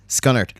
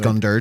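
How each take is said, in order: First: It is said the Scottish way, without a d. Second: It is said the Northern Irish way, with a d.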